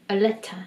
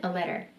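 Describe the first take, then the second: First: "letter" said as leta, no r sound; a clipped t, "letter" ends open; New Zealand letter. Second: "letter" with a flapped t and an r ending, leder; American way: "letter" said as lerer. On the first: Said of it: "원어민들은 letter라고 하는 거죠". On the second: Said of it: "미국식 발음으로 하면". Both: Shown as a demonstration.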